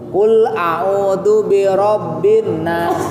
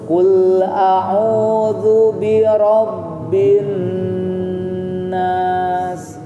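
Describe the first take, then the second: First: The nn is short with no nasal hum. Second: The nn is held long through the nose. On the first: The speaker calls it wrong. "kalau dia tidak didengungkan, tidak ada suara yang keluar dari hidung" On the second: The speaker calls it right. "harus keluarkan dulu dari hidung"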